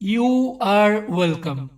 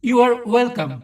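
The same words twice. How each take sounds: First: 'You are' is said as two full words. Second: 'You are' is contracted into one syllable. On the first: "আমরা সাধারণত বলি না" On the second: "এটাকে বলা হয় contraction. যেমন"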